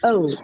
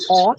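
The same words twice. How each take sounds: First: The vowel glides from one sound to another. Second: The vowel is one steady, unchanging sound. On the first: The speaker calls it right. "this one has like a diphthong" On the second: The speaker calls it wrong. "it's not O"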